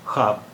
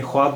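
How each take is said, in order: First: Said in the usual way. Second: ख्वाब said as khwaab, with the w sounded; spelling pronunciation. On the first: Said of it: "जबकि हम उर्दू में इसे ख्वाब बोलते हैं". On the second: Shown as a demonstration. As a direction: sound the vav in ख्वाब: kh-waab. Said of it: "इसे हमें ख्वाब बोलना चाहिए". (ख्वाब में वाव की आवाज़ साफ़ बोलें)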